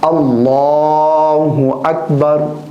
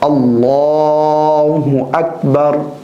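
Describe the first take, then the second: No difference in how they are said.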